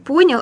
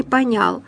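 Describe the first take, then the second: First: "понял" stressed firmly on the first syllable; correct stress. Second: "понял" wrongly stressed on the last syllable. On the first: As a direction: say "понял" as ПО-нял. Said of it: "нужно говорить". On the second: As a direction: say "понял" as по-НЯЛ. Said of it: "а не". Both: Shown as a demonstration.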